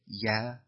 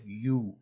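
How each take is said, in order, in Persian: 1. این کلمه به مصوت ah کاهش یافته است. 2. کلمه مصوت oo کشیده دارد. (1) "یکی یا" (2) "یکی یو کشیده"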